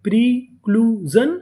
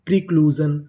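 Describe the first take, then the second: First: प्रीक्लूजन drawn out as pre, clue, जन; syllable by syllable. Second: Said in the usual way. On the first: Shown as a demonstration. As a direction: teach प्रीक्लूजन slowly, one part at a time. (प्रीक्लूजन को तीन हिस्सों में धीरे-धीरे) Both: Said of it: "तो पूरी meaning".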